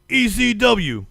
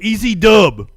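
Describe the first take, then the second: First: The last letter is said as full double-u. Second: The last letter is clipped to just dub. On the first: It sounds like a formal broadcaster. The speaker calls it wrong. "that was the broadcaster in me coming out" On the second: It sounds like a casual fan. The speaker calls it right. "I'm sorry"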